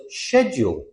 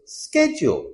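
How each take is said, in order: First: SCHEDULE starting with a SH sound, "shed-yool"; British pronunciation. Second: SCHEDULE starting with SK, "sked-jool"; American pronunciation. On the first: Teacher shows how British people say it, SH pronunciation. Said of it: "British people pronounce it schedule". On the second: Teacher shows how Americans say it, SK pronunciation. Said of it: "Americans pronounce it schedule". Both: Shown as a demonstration.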